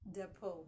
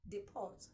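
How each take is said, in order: First: The final T sound is silent. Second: The final T sound is pronounced. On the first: The speaker calls it right. "the correct pronunciation is depot. The T is silent" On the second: The speaker calls it wrong. "some would say depot. No"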